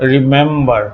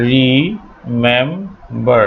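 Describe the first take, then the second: First: Said in the usual way. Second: Slow syllable demo. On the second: Shown as a demonstration. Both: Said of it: "শেষে stress পড়ে না".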